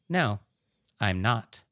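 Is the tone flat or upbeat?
flat. The reply sounds flat and unenthusiastic. "Or it can be a"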